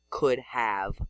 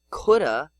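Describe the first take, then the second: First: The phrase is said with every sound full. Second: The phrase is reduced and run together. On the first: "the older versions preserved in spelling" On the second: "Most people say ... coulda"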